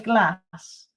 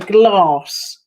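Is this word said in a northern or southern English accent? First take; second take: northern; southern. First: It has a northern accent with a short vowel. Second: It has a southern accent with an 'ar' vowel. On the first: "some people say glass" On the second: "if you're southern like me, you would say glass"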